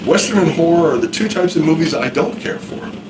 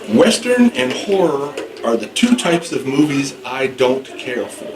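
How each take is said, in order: First: It is spoken at a normal conversational speed. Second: It is spoken slowly and more loudly. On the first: "That's regular speech, regular speed" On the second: "Slow? Okay"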